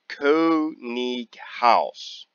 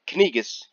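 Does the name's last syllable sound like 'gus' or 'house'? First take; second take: house; gus. First: The last syllable sounds like 'house'. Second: The last syllable sounds like 'gus'. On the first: The speaker calls it right. "House. German pronunciation for house is Haus" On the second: The speaker calls it wrong. "Not Kanigas"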